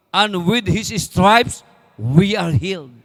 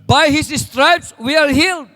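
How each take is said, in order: First: Slow, measured verse reading, fading at the end; solemn reading. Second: Higher, louder, slow proclamation of the verse; emphatic proclamation. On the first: (mabagal at mahinahong pagbasa) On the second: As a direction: proclaim it as a triumph. Verse repeated with force. (malakas at mataas na pagpapahayag) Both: Acted.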